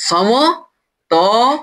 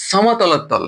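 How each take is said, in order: First: সমতলতল stretched very slowly with a rising end; drawn out. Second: Said in the usual way. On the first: Shown as a demonstration. Teacher prompting students to say the term, very slow. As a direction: draw the word out as a prompt. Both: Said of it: "কি বলা হয়?".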